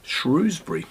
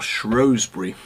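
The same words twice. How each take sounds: First: The name is said the ordinary, everyday way. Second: The name is said the older, posh way. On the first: The pronunciation most people use. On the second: The pronunciation used by older and posh people.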